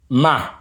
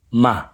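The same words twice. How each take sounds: First: Ma on a high level pitch. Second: Ma on a low level pitch. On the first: Teacher labels the high tone for learners: Ma high. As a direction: pitch Ma up high, same volume. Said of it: "High tone". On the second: Teacher labels the low tone for learners: Ma low. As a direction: pitch Ma down low, same volume. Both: Shown as a demonstration.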